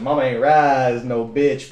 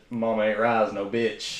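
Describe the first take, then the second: First: Slow, deliberate proclamation; drawn-out catchphrase. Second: Catchphrase. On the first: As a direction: say it slowly, defiant. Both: Retold or imitated. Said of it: "an inside joke".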